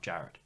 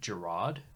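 First: The name is said as plain Jarrett. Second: The name is said as Gerard. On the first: The speaker calls it right. "Just straight up Jarrett" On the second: The speaker calls it wrong. "But I used to pronounce it Gerard"

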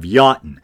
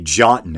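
First: The word begins with a Y sound. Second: The word begins with a J sound. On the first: The speaker calls it right. "instead of Jotun" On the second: The speaker calls it wrong. "I tend to say Jotun"

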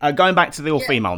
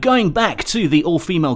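First: It is said in a normal speaking voice. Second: It is said in a put-on DJ voice. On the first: The speaker calls it right. "normal voice" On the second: The speaker calls it wrong. "I'll ask the next question in the DJ voice"

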